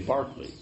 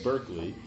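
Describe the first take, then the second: First: The first syllable sounds like 'bark'. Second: The first syllable sounds like 'burk'. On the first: The speaker calls it right. "you say Barkley" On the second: The speaker calls it wrong. "you say them differently than they're spelled"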